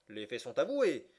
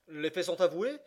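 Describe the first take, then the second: First: AVOUÉS rises, then falls to close as a statement; statement intonation. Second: AVOUÉS lifted high as a question; questioning intonation. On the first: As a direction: say it as a finding, falling at the end of AVOUÉS. Judge's line, first of two takes. (intonation affirmative, descendante sur AVOUÉS) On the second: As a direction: ask it, voice climbing to the end of AVOUÉS. Judge's line retaken as a question. (intonation interrogative, montante sur AVOUÉS) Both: A narrator's reading.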